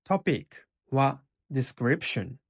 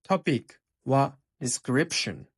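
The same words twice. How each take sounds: The two takes are said the same way.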